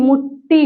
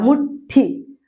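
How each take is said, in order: First: मुट्ठी with doubled plain ट, as muṭṭi; मुट्ठी ending in unaspirated टी; ट form. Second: मुट्ठी as half ट then full ठी; मुट्ठी split as muṭ-ṭhi; ठ form. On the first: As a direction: say मुट्ठी without a puff. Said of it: "लेकिन मुट्ठी होता है". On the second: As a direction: hold the ट, then puff ठी in मुट्ठी. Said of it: "आधा टा निकल रहा है". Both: Shown as a demonstration.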